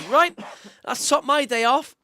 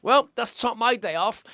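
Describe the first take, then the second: First: Imitating a mate's deadpan line, said higher and louder; a hint of his dry mate, slow and raised; dry deadpan quip. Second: Slow, deadpan retelling of a mate's line; imitating a bone-dry understatement, slowly. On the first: Mate hit by a squash ball, mock deadpan and raised. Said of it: "and he goes". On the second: Bruised squash mate, dry deadpan understatement. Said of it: "He's just, like, dead dry".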